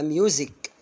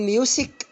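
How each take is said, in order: First: The middle consonant is a buzzing z sound. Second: The middle consonant is a hissing s sound. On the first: The speaker calls it right. "مظبوط، يبقى ميوزك" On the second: The speaker calls it wrong. "بقول ميوسك ولا ميوزك؟"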